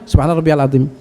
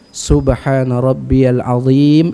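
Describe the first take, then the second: First: It is recited very quickly and hurriedly. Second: It is recited at a calm, normal pace. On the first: The speaker calls it wrong. "jangan Subhana rabbiyal azim bangun. Bukan gitu" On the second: The speaker calls it right. "dengan bacaan yang normal"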